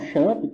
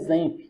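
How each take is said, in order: First: The word begins with a sh sound. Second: The word begins with a z sound. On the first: The speaker calls it wrong. "A maioria das pessoas falam Champ" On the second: The speaker calls it right. "na verdade a pronúncia correta é Zemp"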